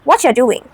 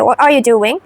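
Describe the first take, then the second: First: The phrase is shortened and run together. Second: Every word is said in full.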